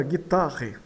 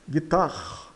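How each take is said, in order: First: "guitarre" with the last E voiced; final E sounded. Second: "guitarre" as "gui-tar"; silent final E. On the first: Teacher reads out the spelling, "guitarre" with final E sounded. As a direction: read "guitarre" in three syllables, as written. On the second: Teacher models the French word, "guitarre" with silent E. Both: Shown as a demonstration. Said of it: "E o E final é mudo".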